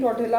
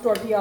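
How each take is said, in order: First: The last syllable starts with an l sound. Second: The last syllable starts with a y sound. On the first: The speaker calls it wrong. "इसकी spelling टॉर्टिला होती है" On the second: The speaker calls it right. "लेकिन ये pronounce टॉर्टिया होता है"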